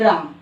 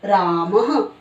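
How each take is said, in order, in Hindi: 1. शब्द के अंत में सादा स्वर है, कोई ह नहीं। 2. शब्द के अंत में नरम आधी ह जैसी आवाज़ है। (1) "इसको बोला हमने राम" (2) "विसर्ग का उच्चारण है वो हमें ह की तरह करना है, आधा ह।"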